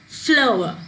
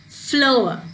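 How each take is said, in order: No difference in how they are said.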